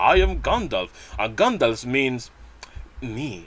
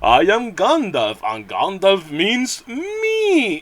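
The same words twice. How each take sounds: First: It sounds modest and humble. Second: It sounds grandiose and self-important.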